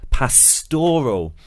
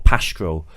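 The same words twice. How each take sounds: First: The stress is on the second syllable. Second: The stress is on the first syllable. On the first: "putting the stress on the second syllable" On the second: "Nikki and I both said pastoral"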